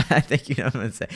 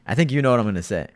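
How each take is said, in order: First: Quick line through a laugh; laughing while teasing. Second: Said in the usual way. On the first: Real, not acted. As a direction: giggle it out teasingly. Same line repeated, then laughing.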